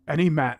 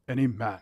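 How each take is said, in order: First: It is said in the speaker's natural voice. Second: It is said in a deep, British-sounding put-on voice. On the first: "So I could do it my way probably" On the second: "I'm gonna try it with him"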